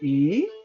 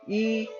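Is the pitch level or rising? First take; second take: rising; level. First: The pitch rises like a question. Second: The pitch stays level throughout. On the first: "with a, uh question mark, which is a tone number two" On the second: "the tone number one"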